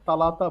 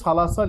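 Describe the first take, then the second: First: The word begins with a t sound. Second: The word begins with an s sound. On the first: This is how Saudis say it. "সৌদিরা কিন্তু তালাতা বলে" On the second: This is the form written here. "এখানে সালাসা লিখছেন"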